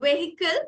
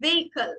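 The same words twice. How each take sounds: First: "Vehicle" with the h sounded; wrong pronunciation. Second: "vehicle" with a silent h; correct pronunciation. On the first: Teacher echoing the student's mistake, mispronounced. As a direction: say "Vehicle" as VE-hi-kul. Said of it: "എച്ച് silent ആണ്". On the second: Teacher correcting the sounded h, carefully pronounced. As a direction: say "vehicle" as VAY-i-kul. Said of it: "So it is actually vehicle". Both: Shown as a demonstration.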